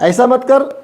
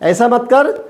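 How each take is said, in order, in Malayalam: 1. വാക്കുകൾ ചുരുക്കി ഒന്നിച്ചു ചേർത്ത് പറയുന്നു. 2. വാക്കുകൾ ചുരുക്കി ഒന്നിച്ചു ചേർത്ത് പറയുന്നു.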